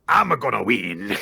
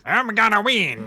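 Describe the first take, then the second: First: It is said in a normal voice. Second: It is said in a Waluigi impression voice.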